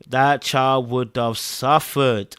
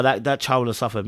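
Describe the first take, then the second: First: Drawn out, word by word; emphatic slow repeat. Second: Said in the usual way. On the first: Real, not acted. Viewer pitying the child, slow emphatic delivery. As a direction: stretch it slowly to make the point.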